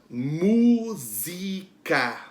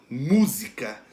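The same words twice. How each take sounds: First: Música slowly split into mu, zi, ca; slow teacher's breakdown of música; syllable by syllable. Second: Música as one word with mu punched; música joined up, leaning on mu; stress on MU. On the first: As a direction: sound out música in stretched, separate syllables. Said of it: "Qual é a sílaba pronunciada com mais força?". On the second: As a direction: hit the first syllable of música, mu. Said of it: "É o mu". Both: Shown as a demonstration.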